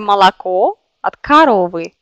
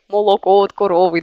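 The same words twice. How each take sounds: First: Unstressed o vowels are reduced toward a. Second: Every o is pronounced as a full o. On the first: This is standard city speech. The speaker calls it right. "Il faut prononcer" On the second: The speaker comes from a small village. The speaker calls it wrong. "petit village, ils prononcent comme le lait de cette vache comme молоко от коровы"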